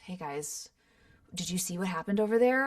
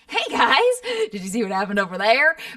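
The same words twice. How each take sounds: First: It is said in a natural, low-key way. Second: It is said in a big, exaggerated, energetic way. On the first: The project calls for a realistic style. "some of it's way more grounded than others" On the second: The project calls for a cartoony style. "As opposed to like"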